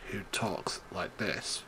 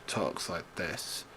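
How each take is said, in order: First: Low, slow, soft and droning; monotone Randy Orton. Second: Low, soft, droning; monotone Randy Orton. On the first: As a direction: drone it like a bored wrestler. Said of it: "boringness of Randy Orton". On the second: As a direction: keep it dull and sleepy. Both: Retold or imitated.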